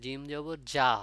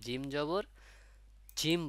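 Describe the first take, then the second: First: The letter is read as a short 'ja' sound. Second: The letter is read with its full name, 'jim'. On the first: The speaker calls it right. "কিন্তু জিম জবর যা হয়" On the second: The speaker calls it wrong. "বলে অনেকে"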